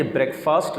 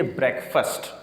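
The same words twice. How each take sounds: First: بریک فاسٹ with long "faast"; full long a in فاسٹ; mispronounced breakfast. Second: بریک فاسٹ as "brek-fust"; short reduced last vowel in بریک فاسٹ; slow "BREK-fst" for بریک فاسٹ; correct breakfast. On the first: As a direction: say بریک فاسٹ like two words. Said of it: "بریک فاسٹ نہیں ہے". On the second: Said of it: "یہ بریک فاسٹ نہیں ہے". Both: Shown as a demonstration.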